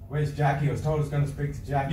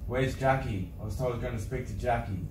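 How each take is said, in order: First: It is said quickly. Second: It is said slowly.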